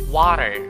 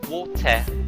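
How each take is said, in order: First: It is said in an American accent. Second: It is said in a British accent. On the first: "let's try to pronounce it in American accent" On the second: "let's try to pronounce this one in British accent"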